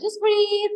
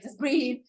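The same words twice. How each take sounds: First: Much higher, louder urgent reminder to breathe; a jolt of alarm at the big truck, telling yourself to breathe; tense self-talk. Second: Said in the usual way. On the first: Retold or imitated. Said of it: "and I'm like". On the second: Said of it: "I'm like".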